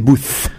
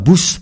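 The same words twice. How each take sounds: First: The word ends with a th sound. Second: The word ends without a th sound. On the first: The speaker calls it right. "si ça fait TH, ça fait Booth" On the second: The speaker calls it wrong. "ça fait pas Booth"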